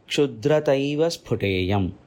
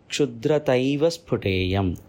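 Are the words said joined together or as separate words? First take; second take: joined; joined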